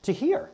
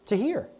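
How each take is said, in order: First: High rising stress on To hear; To hear pushed up high and held; emphatic repeat. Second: High rising stress on To hear; To hear lifted again, a little less; echoed emphasis. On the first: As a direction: lift To hear up high to make the point. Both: Shown as a demonstration. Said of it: "I'm gonna make a point".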